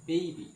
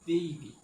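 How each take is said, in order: The two takes are said the same way.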